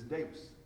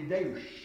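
First: The word ends with an s sound. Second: The word ends with a sh sound.

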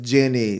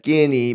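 First: The name begins with a soft J sound. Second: The name begins with a hard G sound. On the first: The speaker calls it right. "So it's Ginny. Sorry" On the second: The speaker calls it wrong. "I thought as a name, could maybe be pronounced as Ginny, but I'm hearing no"

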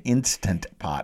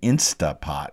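First: The first word is said in full, instant. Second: The first word is shortened to insta. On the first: The speaker calls it right. "It's an Instant Pot" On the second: The speaker calls it wrong. "as they mispronounce it"

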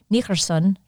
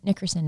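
First: The name is said in a Scottish accent. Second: The name is said in the speaker's own accent. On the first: "I can't do a Scottish accent" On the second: "I said, oh yeah, [name]"

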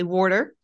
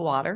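First: The word is said in a Philadelphia accent. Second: The word is said in a standard accent. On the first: This is how the local children now say it. "So they all have Philadelphia accents now. They say water" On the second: This is how it is usually said. "instead of water"

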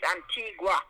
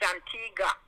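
First: The last syllable is said as 'gwa'. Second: The last syllable is said as 'ga'. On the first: This is the proper local pronunciation. The speaker calls it right. "It's a G-U-A. ... But it's Antigua" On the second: This is how other people commonly say it. The speaker calls it wrong. "people don't pronounce it properly. It's Antigua, they say"

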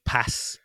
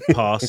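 First: The word is said in a non-London accent. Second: The word is said in a London accent. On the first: "instead of pass... a lot of people outside of London say pass" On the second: "And pass"

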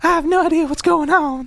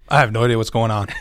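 First: It is said in a put-on cartoon character voice. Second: It is said in the speaker's ordinary voice.

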